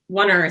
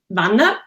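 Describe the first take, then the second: First: The name has an English pronunciation. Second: The name has a Swiss German pronunciation. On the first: "in English, it's Wanner" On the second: "in like in Swiss German, you would say Wanner"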